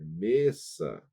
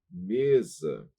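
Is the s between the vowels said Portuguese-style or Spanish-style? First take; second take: Spanish-style; Portuguese-style. First: The s between vowels sounds Spanish-style. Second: The s between vowels sounds Portuguese-style. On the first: The speaker calls it right. "não é mesa, é mesa" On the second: The speaker calls it wrong. "Se nós formos ler em português"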